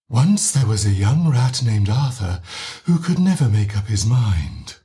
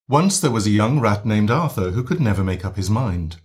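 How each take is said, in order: First: The voice is breathy with a lot of pushed air. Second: The voice is clear and strong, not breathy.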